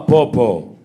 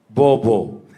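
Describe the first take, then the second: First: The word begins with a voiceless p sound. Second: The word begins with a voiced b sound.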